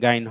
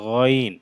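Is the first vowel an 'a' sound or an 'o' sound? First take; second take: a sound; o sound. First: The first vowel is an open 'a' sound. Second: The first vowel is a rounded 'o' sound. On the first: The speaker calls it wrong. "গাইন হবে না" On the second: The speaker calls it right. "এটা গইন"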